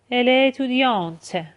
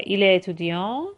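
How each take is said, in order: First: اتودیانت closing on a released T; French feminine "اتودیانت" with audible t; feminine reading, T pronounced. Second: اتودیان ending on a nasal vowel; French masculine "اتودیان" with mute ending; masculine reading, silent T. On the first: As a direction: sound the T at the end of اتودیانت, higher pitch. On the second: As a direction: leave the final T off اتودیان. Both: Shown as a demonstration. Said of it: "توی خوندنشون هم با هم دیگه".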